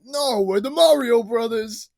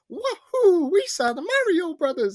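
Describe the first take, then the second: First: Raised, louder, drawn-out mock reply, no cartoon accent; slow it down, higher and insistent; Mario Brothers. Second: High cartoon Italian accent, bursting with laughter; hammed-up Italian accent, squeaky and loud; wacky Italian accent. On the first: Co-host as the brothers answering doubts, accent dropped. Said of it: "cuts away from the commercial". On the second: Co-host reenacting the movie's commercial, wacky Italian accent. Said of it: "with wacky Italian accent".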